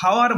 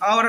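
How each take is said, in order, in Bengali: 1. শব্দটি h ধ্বনি দিয়ে শুরু হয়। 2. শব্দটি স্বরধ্বনি দিয়ে শুরু হয়। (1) "আমরা কিন্তু হাওয়ার বলি না কখনোই" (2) "আমরা কি বলি"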